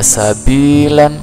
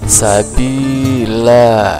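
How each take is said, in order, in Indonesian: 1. Kata itu berakhir dengan vokal pendek dan n. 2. Kata itu berakhir dengan vokal terbuka yang panjang. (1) "Yang tadinya sabilan" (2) "kita baca sabila"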